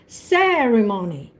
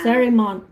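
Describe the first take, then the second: First: The stress is on the first syllable. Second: The stress is on the third syllable. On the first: The speaker calls it right. "The accent is ceremony" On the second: The speaker calls it wrong. "I think you put the accent on money"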